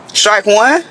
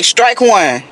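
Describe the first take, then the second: First: Incredulous echo. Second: Said in the usual way. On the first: Real, not acted. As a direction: repeat it back, stunned. Echoing her date in disbelief. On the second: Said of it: "And she was like".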